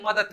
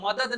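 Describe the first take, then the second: First: मदद ending in t, madat; spoken pronunciation. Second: मदद with final d, madad; spelling pronunciation. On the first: Teacher showing everyday form, मदद ending in t. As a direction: harden the end of मदद to a t. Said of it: "त लगा देते हैं". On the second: Teacher showing written form, मदद ending in d. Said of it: "मदद नहीं बोल के". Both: Shown as a demonstration.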